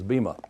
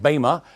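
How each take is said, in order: First: It is said with the English pronunciation. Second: It is said with the ancient Greek pronunciation. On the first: "the English pronunciation of it, of course, is bema" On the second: "that's supposedly the ancient Greek pronunciation"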